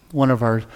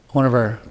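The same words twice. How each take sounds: The two takes are said the same way.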